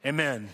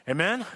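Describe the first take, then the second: First: Said in the usual way. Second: Amen? rising, asking the crowd to answer; calling for amen. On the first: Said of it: "what amen means". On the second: Shown as a demonstration. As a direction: throw Amen? out as a question. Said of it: "That's why we say amen together".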